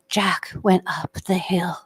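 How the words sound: The voice is soft and breathy. "the breathy, canlit voice that you hear"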